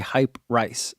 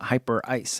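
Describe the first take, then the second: First: It is split as hype plus rice. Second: It is split as hyper plus ice. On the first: The speaker calls it wrong. "I was mispronouncing it on purpose, but now when I see it, I say hype rice" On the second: The speaker calls it right. "not hyper ice"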